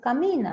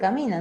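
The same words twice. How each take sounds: First: It is said in a soft, gentle tone. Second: It is said in a harsh, raised tone.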